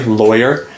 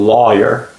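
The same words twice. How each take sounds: First: The first syllable rhymes with boy. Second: The first syllable rhymes with saw. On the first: "like boy, rhymes it with boy" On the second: "rhymes it with the word saw"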